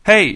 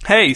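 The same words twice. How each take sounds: First: Raised-voice "Hey" for attention; louder call. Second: Said in the usual way. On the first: A narrator's reading. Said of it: "she said again, louder". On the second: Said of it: "Hey," she said again, louder".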